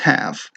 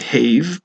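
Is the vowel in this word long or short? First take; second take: short; long. First: The vowel is short, as in 'hat'. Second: The vowel is long, as in 'hay'. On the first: The speaker calls it right. "but it's not. It's have" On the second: The speaker calls it wrong. "You might think that this was a magic E word, that this would jump over and make this say have"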